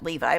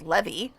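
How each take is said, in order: First: The name ends with an 'eye' sound. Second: The name ends with an 'ee' sound. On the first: This is how the name is usually said. "I've always pronounced that Levi" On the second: This is how the character says his own name. "but he said Levy"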